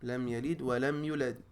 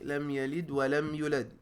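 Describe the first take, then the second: First: The vowel in yulad is cut short. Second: The same.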